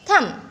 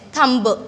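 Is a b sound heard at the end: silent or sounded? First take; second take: silent; sounded. First: No b sound is heard at the end. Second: A b sound is heard at the end. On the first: The speaker calls it right. "We will read as thumb" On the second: The speaker calls it wrong. "Here we are not going to say it as thumb. No, it's wrong"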